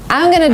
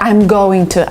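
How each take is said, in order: First: It is reduced to a blended "gonna". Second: It is said as the full words "going to". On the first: The speaker calls it right. "What Americans would say" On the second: The speaker calls it wrong.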